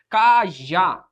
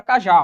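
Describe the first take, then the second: First: "Cajá" slowly split, stress on the final "já"; syllable-by-syllable stress. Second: Said in the usual way. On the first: Shown as a demonstration. Teacher showing students the tonic syllable, "Cajá" split and stressed on "já". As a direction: break "Cajá" into ca-já, lengthening the stressed "já". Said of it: "É o já". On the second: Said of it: "Qual que é a sílaba tônica?".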